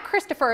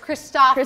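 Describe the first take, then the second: First: The name is pronounced the usual English way. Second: The name is pronounced the Danish way. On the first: The speaker calls it wrong. "it's not Christopher" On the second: The speaker calls it right. "the Danes pronounce it as Christopher"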